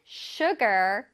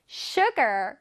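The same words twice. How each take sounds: The two takes are said the same way.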